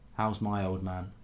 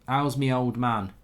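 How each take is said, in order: First: The possessive is said as 'my'. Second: The possessive is said as 'me'.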